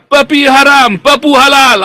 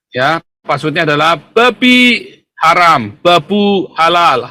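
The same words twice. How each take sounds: First: Loud, high villain gloat; much higher and louder, slow; sneering panto villain. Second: Sneering panto villain. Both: Acted. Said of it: "tertawa jahat".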